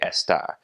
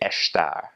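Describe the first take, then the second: First: It has a Brazilian Portuguese accent, plain S. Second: It has a continental Portuguese accent, SH sound.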